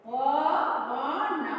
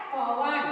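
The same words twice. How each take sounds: First: पवन stretched very slowly, sound by sound; drawn-out breakdown. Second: Said in the usual way. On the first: Shown as a demonstration. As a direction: pull पवन apart into its long parts. Teacher splits word for sandhi. (पवन को खींचकर, तोड़कर धीरे-धीरे)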